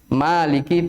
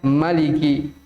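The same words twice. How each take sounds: First: The vowel after the m is long. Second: The vowel after the m is short. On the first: This is the reading of the Hafs transmission. "maliki panjang" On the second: This is the reading of most other transmissions. "dengan pendek mimnya"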